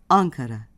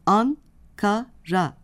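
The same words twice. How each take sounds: First: "Ankara" said whole, stress on An, falling after; stress on first syllable. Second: "An-ka-ra" slowly split into three syllables, An, ka, ra. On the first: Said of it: "vurgu ilk hecededir". ("Ankara" ilk hece vurgulu) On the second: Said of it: "An-ka-ra sözcüğünde". ("An-ka-ra" hece hece, yavaşça) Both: Shown as a demonstration.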